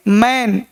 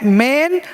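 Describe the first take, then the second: First: मैन with a wide "ae"; मैन with the open vowel. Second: मेन very slow, with long "ay"; drawn-out मेन with the closed vowel. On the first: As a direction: say मैन like English "man", falling. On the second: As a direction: stretch मेन as "maayn". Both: Shown as a demonstration. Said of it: "वहाँ ए और यहाँ ए".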